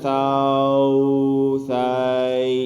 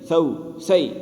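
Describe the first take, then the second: First: The vowels are stretched out too long. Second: The vowels are held softly at moderate length. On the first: The speaker calls it wrong. "इतना भी नहीं करना" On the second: The speaker calls it right. "एक सी मिकदार बिल्कुल नॉर्मल होगी, नरमी से पढ़ा जाएगा"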